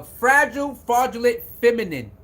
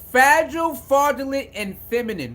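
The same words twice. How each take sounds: First: Said in the usual way. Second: "Fragile" and "fraudulent" hit high and loud; emphatic repeat. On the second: Shown as a demonstration. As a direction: spit out "Fragile, fraudulent" with punch, then drop on "feminine".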